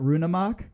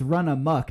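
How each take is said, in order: First: The first syllable has the long vowel of 'rune'. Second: The first syllable has the short vowel of 'run'. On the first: The speaker calls it wrong. "not Rune Amok? ... if I've been saying it wrong" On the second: The speaker calls it right. "So it's it's Run Amok"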